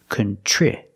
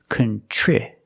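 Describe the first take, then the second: The two takes are said the same way.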